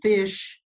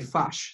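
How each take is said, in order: First: The vowel is a short i sound. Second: The vowel is a short u-like sound. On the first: This is how an Australian says it. "if you're saying fish" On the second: This is how a New Zealander says it. "they would say fush. So they replace the I with a U"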